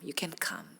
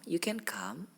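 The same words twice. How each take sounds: First: The word 'can' is cut off short and abruptly. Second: The word 'can' is smooth and drawn out. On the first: The listener is not able to come. "can-nya terhentak" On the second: The listener is able to come. "dadanya itu smooth"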